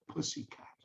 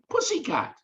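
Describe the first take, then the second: First: Unvoiced, breathy pussycat; hushed pussycat; whispered. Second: Much higher, falling Pussycat; high delighted Pussycat; emphatic. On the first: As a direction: whisper the word like a secret. Whispered punchline word. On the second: Retold or imitated. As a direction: sing out the word with glee. Repeated punchline, much higher.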